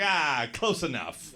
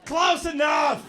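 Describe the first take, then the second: First: Slow, offhand brush-off; dismissive. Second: Slow, high, loud exaggeration; mocking shout. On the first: Retold or imitated. Some guy corrected on his nationality, dismissive. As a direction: shrug it off as near enough. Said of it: "He's like". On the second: Comic replaying the guy's answer, mocking shout. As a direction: blow up the brush-off into a shout.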